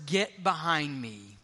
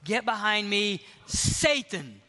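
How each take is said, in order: First: "Get behind me" said slow and lower; slow, low, measured "behind me", no punch; a lower, unhurried "Get behind me" as instruction; stress on behind me. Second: Pause, then Satan hit hard; "Get behind me", then a punched "Satan"; stress on Satan. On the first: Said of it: "The emphasis is on the wrong syllable". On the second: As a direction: lean on the word "Satan" after a short pause. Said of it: "we read it this way". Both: Shown as a demonstration.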